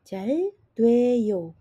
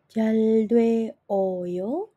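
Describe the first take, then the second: First: The vowels are merged into one syllable. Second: The vowels are said as separate syllables. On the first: The speaker calls it right. "otomatis langsung berbunyi sebagai jaldweyo" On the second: The speaker calls it wrong. "tidak akan berbunyi sebagai jaldwe oyo"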